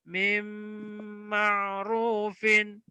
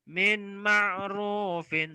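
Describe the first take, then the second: First: The n merges fully into a nasal m. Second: A separate n is heard before the m. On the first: The speaker calls it right. "Yang betul adalah" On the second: The speaker calls it wrong. "salah kalau dibaca min ma'rufin"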